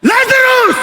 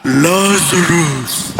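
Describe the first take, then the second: First: Shouted high "Lazarus!"; loud call. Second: Very low, very slow "Lazarus." stretched out; archangel's call. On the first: Jesus calling dead Lazarus out of the tomb, loud high call. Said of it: "Ano sinabi niya?". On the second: Archangel calling from the heavens, deep slow call. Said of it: "In the heavenlies, parang". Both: Retold or imitated.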